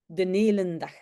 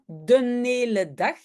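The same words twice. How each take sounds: First: An N sound links 'hele' to 'dag'. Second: No N sound is added after 'hele'. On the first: "je pense que même ici, on rajoute le N" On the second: "on ne dit pas le N, c'est de hele dag"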